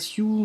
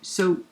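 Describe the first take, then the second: First: The word is said with a yoo vowel. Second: The word is said with an oh vowel. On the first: The speaker calls it wrong. "on dit pas siou" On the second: The speaker calls it right. "on dit so"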